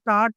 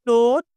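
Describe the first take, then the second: First: The vowel sounds like an open 'ah'. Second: The vowel sounds like a rounded 'oh'. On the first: The speaker calls it wrong. "చాలామంది think థాట్, థాట్ అంటారు. ఇది థాట్ కాదండి" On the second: The speaker calls it right. "థాట్ ఓ పలకాలి"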